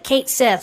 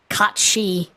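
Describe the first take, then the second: First: It sounds like 'Kate Sith', ending in 'th'. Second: It sounds like 'Kachi', ending in 'ee'. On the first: The speaker calls it wrong. "everyone pronounces it Kate Sith" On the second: The speaker calls it right. "It's Kachi"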